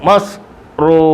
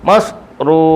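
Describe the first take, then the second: The two takes are said the same way.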